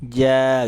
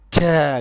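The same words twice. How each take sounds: First: The syllable is released slowly and gently. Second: The syllable is released with force. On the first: The speaker calls it right. "Pelan banget, perlahan. Ja gitu" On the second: The speaker calls it wrong. "nggak ja gitu"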